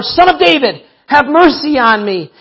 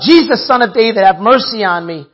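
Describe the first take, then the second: First: Higher, insistent cry for mercy; crying out harder. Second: Mild cry for mercy, read aloud. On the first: Blind man refuses to be silenced, crying out harder. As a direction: call out all the more, pitch raised. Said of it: "he cried out all the more". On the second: Blind man calls to Jesus for mercy, crying out. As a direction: read as an understated call for help. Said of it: "he cried out". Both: A narrator's reading.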